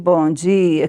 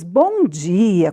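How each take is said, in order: First: It is said sleepily and reluctantly. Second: It is said cheerfully and brightly.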